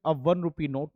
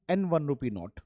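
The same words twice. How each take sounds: First: Said in the usual way. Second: An one rupee note read out slowly as the wrong version; slow, deliberate wrong an one rupee note; wrong form. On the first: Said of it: "हम यहाँ पे कहेंगे". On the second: Shown as a demonstration. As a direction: drag out an one as the mistake. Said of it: "ना कि".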